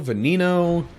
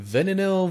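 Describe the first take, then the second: First: "Veneno" as vuh-NEE-no, higher; second pronunciation guess. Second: "Veneno" as VEN-uh-no, questioning and higher; first pronunciation guess. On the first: Player retrying car's name, "Veneno" as vuh-NEE-no. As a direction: try "Veneno" with a long EE in the middle. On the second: Player unsure of car's name, "Veneno" as VEN-uh-no. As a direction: try "Veneno" with a short first E, stressed up front. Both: Shown as a demonstration. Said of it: "how do you pronounce that one?".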